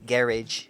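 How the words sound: It is said with a British pronunciation.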